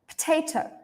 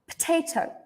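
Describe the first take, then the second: First: The first syllable is reduced to a quick p. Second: The same.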